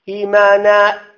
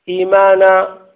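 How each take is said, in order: First: The final vowel is cut off by a glottal stop. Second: The final vowel stays open with no glottal stop. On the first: The speaker calls it wrong. "أقفلت المخرج فخرجت الهمزة" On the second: The speaker calls it right. "لا أحتاج إلى هذه الهمزة"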